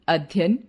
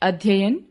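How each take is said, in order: No difference in how they are said.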